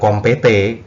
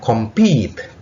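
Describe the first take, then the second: First: The final e is sounded as a vowel. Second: The final e is silent. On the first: The speaker calls it wrong. "Bukan kompete" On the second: The speaker calls it right. "E yang terakhir itu tidak dibaca"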